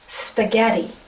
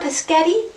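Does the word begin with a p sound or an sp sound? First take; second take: sp sound; p sound. First: The word begins with an sp sound. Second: The word begins with a p sound. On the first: The speaker calls it right. "Honey, it's spaghetti" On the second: The speaker calls it wrong. "Can I please have some pescetti?"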